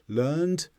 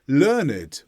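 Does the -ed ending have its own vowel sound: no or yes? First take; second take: no; yes. First: The ending is said with no extra vowel sound. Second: The ending is said with an extra vowel sound. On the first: Someone acquired knowledge in the past. "where we don't pronounce the E would be for the verb form" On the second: Someone knows a lot. "learned when it's an adjective"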